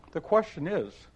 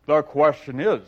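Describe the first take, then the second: First: Put-on mild girlish pitch; Alice. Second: Louder, pompous egg; booming self-important Humpty; Humpty Dumpty. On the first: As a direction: ask it politely as a little girl. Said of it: "said Alice". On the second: Acted. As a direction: lord it over her. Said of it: "said Humpty Dumpty".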